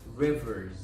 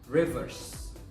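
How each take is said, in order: First: The final sound is a buzzing z. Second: The final sound is a hissing s. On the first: The speaker calls it right. "will be pronounced as a Z sound" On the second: The speaker calls it wrong. "not an S sound"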